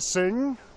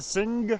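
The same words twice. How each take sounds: First: It is said in a standard English accent. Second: It is said in a Liverpool accent. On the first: "They don't say" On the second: "the accident of the Liverpool people"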